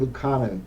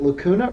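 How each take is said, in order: First: The name sounds like 'loo-KAH-noo'. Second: The name sounds like 'la-KOO-na'. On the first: The speaker calls it right. "It's Lucanu" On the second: The speaker calls it wrong. "the way you've been pronouncing it"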